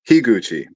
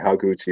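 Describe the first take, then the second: First: The first syllable sounds like 'hee'. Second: The first syllable sounds like 'ha'. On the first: The speaker calls it right. "Shinji Higuchi. Okay" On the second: The speaker calls it wrong. "Sometimes I accidentally say Haguchi"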